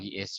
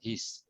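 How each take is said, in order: First: It is said as two separate words. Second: It is run together as one short syllable. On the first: The speaker calls it wrong. "Tidak salah kalau he is" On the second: The speaker calls it right. "lebih bagus kalau his"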